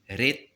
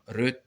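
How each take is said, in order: First: The vowel is a clear, open e sound. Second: The vowel is a rounded, schwa-like sound. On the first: "c'est comme ça qu'on dit en Béarn" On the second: "ils changent le et en e"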